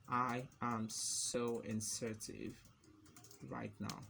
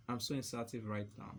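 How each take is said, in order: First: Slow, with a long pause; typing-pace dictation. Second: Said in the usual way. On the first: Real, not acted. Typing inserted example text, slow dictation. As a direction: draw it out word by word.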